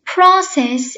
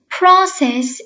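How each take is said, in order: First: It is said in an American accent. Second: It is said in an American accent.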